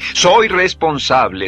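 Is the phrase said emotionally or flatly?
emotional. It is said warmly, full of feeling. The speaker calls it right.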